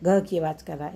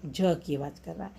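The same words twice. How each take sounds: First: ग said as a hard g; hard G sound. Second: ज said like an English j; soft G sound. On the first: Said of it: "hard sound है ना". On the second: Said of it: "ये soft sound हो गया". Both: Shown as a demonstration.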